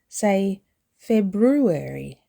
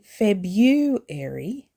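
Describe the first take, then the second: First: The R after the B is pronounced. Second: The R after the B is skipped. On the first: The speaker calls it right. "Don't skip the R after the B" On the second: The speaker calls it wrong. "Don't say February"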